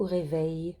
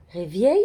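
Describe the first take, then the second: First: Said in the usual way. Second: "Réveil" misread as ré-vièy; i placé avant. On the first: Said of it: "se place avant le son i". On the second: Shown as a demonstration. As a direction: put a y-glide after the v in "Réveil". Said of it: "Le i est avant". (« Réveil » prononcé « réviel », i avant le è)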